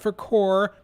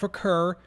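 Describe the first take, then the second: First: The name is said ending like 'core'. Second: The name is said ending like 'kerr'. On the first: "not for Core" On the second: "not for Kerr"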